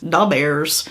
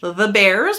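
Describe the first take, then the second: First: It is said in an exaggerated Chicago accent. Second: It is said in a plain, neutral accent.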